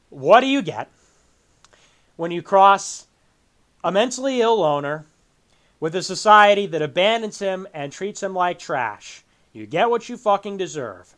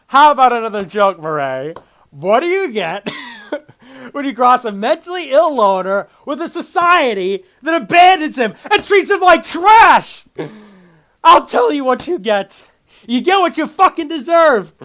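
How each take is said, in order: First: Unmoved, matter-of-fact recital of the line; dry read-off in halting phrases. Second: Loud, high, theatrical villain rant; hammed-up, impassioned movie monologue; Joker. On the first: Retold or imitated. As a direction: imitate someone reading a quote without reacting. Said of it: "he just reads it off". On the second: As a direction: build from a taunting joke to an outraged shout. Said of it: "and then Joker says".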